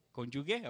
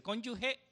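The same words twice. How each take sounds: First: "¿Cónyuge?" with a hard g, kon-yu-ge; "¿Cónyuge?" asked with the g said hard; trying a pronunciation. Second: "¿Cónyuge?" asked with a breathy h for the g; trying a pronunciation. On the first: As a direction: test "¿Cónyuge?" with a clear hard g, questioning. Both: Shown as a demonstration. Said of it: "¿cómo se dice?".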